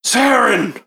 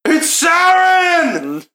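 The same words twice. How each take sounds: First: High exclamation after a gasp; shocked recognition. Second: High, drawn-out loud shout; yelling out. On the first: Guard recognizes the dead woman, shocked. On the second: Guard alerts the whole town, yelling out. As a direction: yell the news across the town. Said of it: "he just yells out". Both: Acted.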